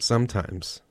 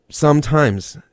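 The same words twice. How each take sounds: First: "sometimes" set off in audible air quotes; air-quoted. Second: "Sometimes" punched louder and higher; emphatic stress. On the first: Shown as a demonstration. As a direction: say "sometimes" as a quoted qualifier, less forcefully. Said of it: "I'm gonna do the air quote". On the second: Real, not acted. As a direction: hit "Sometimes" hard as a loud, high qualifier. Qualifying a liking for screams, emphatically.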